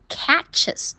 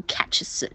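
First: "catches" slowly, with a clear vowel in ches; correct ending. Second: "catches" with ches squashed into voiceless consonants; wrong ending demo. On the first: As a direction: say "catches" as two syllables, catch-iz. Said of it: "它要读catches". (慢读 catches，第二个音节带元音) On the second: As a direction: show the mistake, catch-s with the second vowel lost. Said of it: "这样发不出来音的". (错误示范，catches 词尾吞掉元音) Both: Shown as a demonstration.

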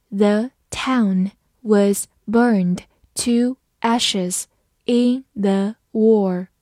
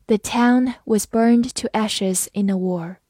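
First: Very slow, word by word; slow reading. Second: Said in the usual way. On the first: Shown as a demonstration. Teacher modelling for students, very slow and clear. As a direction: read it slowly for the students to follow. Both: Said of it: "好，慢慢来读。".

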